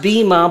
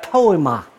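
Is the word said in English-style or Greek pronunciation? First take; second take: Greek; English-style. First: The word has its Greek pronunciation. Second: The word is read as English spelling suggests. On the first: "which is pronounced bima" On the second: "it's actually spelled like poema"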